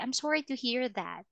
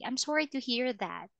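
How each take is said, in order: First: It is said in a sad, sincere tone. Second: The same.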